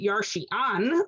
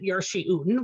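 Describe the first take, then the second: First: The final syllable has an 'a' vowel. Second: The final syllable has an 'u' vowel. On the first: The verb is singular, following the written spelling. "like its apparent spelling" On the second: The verb is plural, following the reading tradition. "like the tradition"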